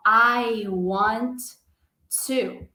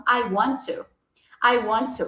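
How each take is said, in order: First: "I want" then a pause before "to", both T's said; word by word. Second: "I want to" run together, one T only; linked sounds. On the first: Teacher showing the learner mistake, word by word. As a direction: break the phrase apart. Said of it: "a gente não fala assim". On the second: Teacher modelling native linking, one T. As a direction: glide "want to" into one word. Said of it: "Vai ficar um". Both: Shown as a demonstration.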